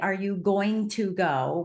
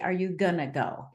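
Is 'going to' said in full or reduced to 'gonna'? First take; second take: full; reduced. First: Going to is said in full, each word clear. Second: Going to is squeezed together into gonna. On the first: "we don't say" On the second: "We say, ... we have a very lazy language"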